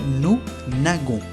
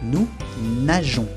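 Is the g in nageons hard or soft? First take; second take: hard; soft. First: The g is a hard g sound. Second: The g is a soft zh sound. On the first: The speaker calls it wrong. "Si no tuviera esa E, se diría nous nagons, lo cual es incorrecto" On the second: The speaker calls it right. "Aquí se pronuncia jon"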